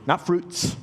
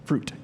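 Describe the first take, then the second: First: Fruits with the final s stressed; fruits, the wrong plural, s marked. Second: Fruit said firmly, singular, no s; fruit, the right singular, firm fall; correct singular. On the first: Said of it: "is singular in the Greek". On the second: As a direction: land on fruit as one word. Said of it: "One fruit". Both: Shown as a demonstration.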